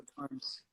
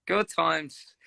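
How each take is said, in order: First: Soft, wistful murmur. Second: Said in the usual way. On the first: Real, not acted. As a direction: let it drift off softly.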